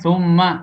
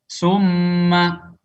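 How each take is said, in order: First: The word starts with a th sound. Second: The word starts with an s sound. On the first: The speaker calls it right. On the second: The speaker calls it wrong. "ini dibaca"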